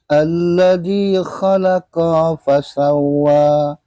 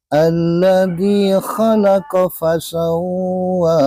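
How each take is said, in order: First: The 'qa' vowel is drawn out long. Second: The 'qa' vowel is kept short. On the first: The speaker calls it wrong. "jangan sampai ... Jadi ko-nya jangan dipanjangkan" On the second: The speaker calls it right. "Itu biasa saja"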